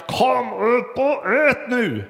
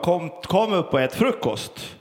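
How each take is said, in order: First: High, slow, drawn-out call; forceful call. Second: Lightly voiced call, barely raised; a calm first call up the stairs; mild call. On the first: Retold or imitated. Mother's third call to gaming son, high slow forceful call. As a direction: stretch every word out, ordering him up now. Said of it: "ropade med kraft". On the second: Mother calling son to breakfast, mild everyday call. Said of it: "Kerstin ropade".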